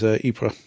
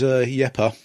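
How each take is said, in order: First: The name is pronounced the French way. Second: The name is pronounced the Flemish way. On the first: "the French is Ypres" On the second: "the Flemish is Yepa"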